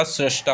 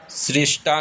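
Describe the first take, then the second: First: सृष्टा said srashtaa, with an a; correct form srashta. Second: सृष्टा said srishtaa, with an i; wrong form srishta. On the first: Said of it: "सृष्टा होता है". (सही उच्चारण: सृष्टा को 'स्रष्टा') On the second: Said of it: "सृष्टा नहीं होता". (गलत उच्चारण: सृष्टा में 'रि') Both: Shown as a demonstration.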